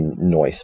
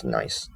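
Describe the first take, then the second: First: "nice" said as "noice", with an oy vowel; goofy "noice". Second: Said in the usual way. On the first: Shown as a demonstration. Narrator showing what Robert didn't say, "nice" as goofy "noice". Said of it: "He doesn't say "nice". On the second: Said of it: "but he says".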